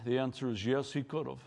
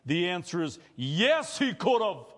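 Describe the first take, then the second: First: Low, soft first answer; a hushed yes; quiet answer. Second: The yes lifted and he punched; emphatic yes. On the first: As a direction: say it quietly, almost to yourself. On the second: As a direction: answer with full conviction. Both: Shown as a demonstration.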